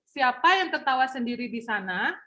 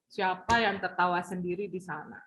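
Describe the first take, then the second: First: The sentence is said at medium volume. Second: The sentence is said softly.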